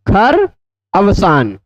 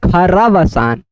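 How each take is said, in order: First: The two words are said as separate words. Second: The two words are merged into one word.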